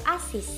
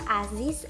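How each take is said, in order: First: The word ends with a voiceless s sound. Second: The word ends with a voiced z sound. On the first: "atau bunyi S" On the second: "dilafalkan sebagai bunyi Z"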